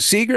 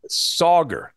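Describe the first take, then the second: First: The first vowel sounds like the vowel in 'see'. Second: The first vowel sounds like the vowel in 'soccer'. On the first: The speaker calls it wrong. "I mispronounced his name" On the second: The speaker calls it right. "think of soccer when you say his name"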